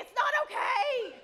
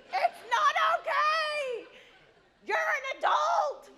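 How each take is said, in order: First: Laughing outburst. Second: Slow, high, loud hammed-up crying protest; loud mock sob of outrage; mock wailing. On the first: Retold or imitated. Mom overreacting, laughing. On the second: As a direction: wail it like a melodramatic mother.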